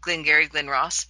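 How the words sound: The vowel in Glen sounds like pin. This imitates how some Indiana speakers say it. "pronounce all their E's as I's"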